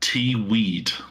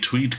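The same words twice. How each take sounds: First: The word is split into T and weed. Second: The word is said as one smooth syllable. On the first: The speaker calls it wrong. "pronounce it T-weed" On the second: The speaker calls it right. "can't even say tweed correctly"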